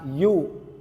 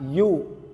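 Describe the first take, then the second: First: It sounds like the English letter 'you'. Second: It sounds like the English letter 'you'.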